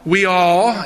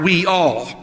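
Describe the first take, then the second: First: The two words are run together, Southern style. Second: The two words are said clearly apart. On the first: "That sounds like from the South. ... I used to say it like that before I came north" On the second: "learned to take the words apart"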